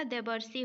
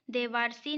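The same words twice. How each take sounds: First: देवर्षि as "de-bar-si"; short a in the middle of देवर्षि; देवर्षि, no long aa; correct short middle vowel. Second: देवारसी with long "vaar"; देवारसी, long aa in the middle; wrong long middle vowel. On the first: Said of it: "होता है". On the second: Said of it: "नहीं होता". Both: Shown as a demonstration.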